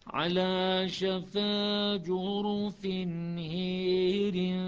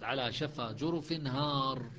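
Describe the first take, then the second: First: The long vowel in the last word leans toward e. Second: The long vowel in the last word is open. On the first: "وشعبة الإمالة" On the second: "حفص الفتح"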